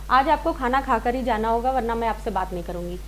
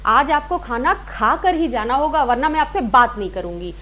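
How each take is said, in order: First: It is said plainly with no word stressed. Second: Strong stress falls on the word खा कर. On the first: "ये तो normal हो गया।" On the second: "तो खा कर बात, ये जो है देखिए एम्फसाइज हो गया"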